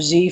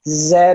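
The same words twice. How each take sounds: First: The letter is named the American way. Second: The letter is named the non-American way.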